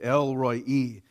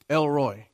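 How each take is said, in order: First: It sounds unlike the English first name Elroy. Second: It sounds like the English first name Elroy. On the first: The speaker calls it right. "this is the way they enunciated" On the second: The speaker calls it wrong. "it sounded like a southern name to me"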